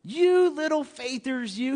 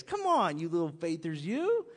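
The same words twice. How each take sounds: First: Slow teasing repeat. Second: Smiling tease. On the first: Shown as a demonstration. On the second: Retold or imitated. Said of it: "He probably had a big smile on his face".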